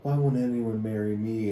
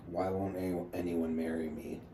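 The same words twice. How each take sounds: First: Louder mocking copy of her question; hammed-up plea, pushed louder; mock plaint. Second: Understated mock complaint, in a near-usual voice; retold sarcasm. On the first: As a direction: parody her post, loud and playful. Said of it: "And I was like". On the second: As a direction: quote her deadpan, barely acting it. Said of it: "trying to be sarcastic".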